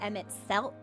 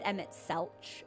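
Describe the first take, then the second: First: The name ends with a k sound. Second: The name ends with a ch sound. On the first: The speaker calls it right. "It took me ages to get used to" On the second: The speaker calls it wrong. "I said Emmett Selch for a really long time"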